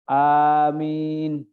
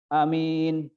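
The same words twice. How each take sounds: First: The first vowel is said long. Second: The first vowel is said short. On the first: The speaker calls it right. "alifnya itu panjang" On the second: The speaker calls it wrong. "bukan amin"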